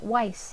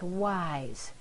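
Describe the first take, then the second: First: The word ends with a hissing S sound. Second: The word ends with a buzzing Z sound. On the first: The speaker calls it wrong. "It's not weiss" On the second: The speaker calls it right. "The S is sounding like a Z here"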